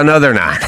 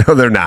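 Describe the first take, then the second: First: Said in the usual way. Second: Repeats it through a laugh; chuckling no, they're not. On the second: Retold or imitated. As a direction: laugh it out the second time. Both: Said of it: "I go".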